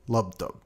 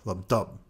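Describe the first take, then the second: First: The word lub is louder than dub. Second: The word lub is quieter than dub.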